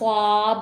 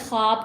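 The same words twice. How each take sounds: First: The w sound is fully pronounced. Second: The w sound is light and soft. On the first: The speaker calls it wrong. "ख्वाब नहीं बोलते इसको" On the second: The speaker calls it right. "ख्वाब कहते हैं"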